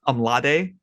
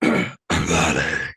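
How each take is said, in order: First: It is said in a plain natural voice. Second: It is said in a rough gravelly voice.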